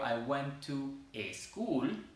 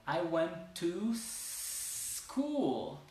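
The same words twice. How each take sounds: First: "I went to a school" with "eh" before school; Spanish-accented "eschool" in the sentence; wrong added E. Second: "I went to school" with "to" gliding into a long hissed S; slow phrase, S stretched before "cool"; S without E. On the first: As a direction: break in an E, "to eh-school". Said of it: "Entonces no es como". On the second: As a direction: say "tooosss-cool", no E. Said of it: "sin decir una E al principio". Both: Shown as a demonstration.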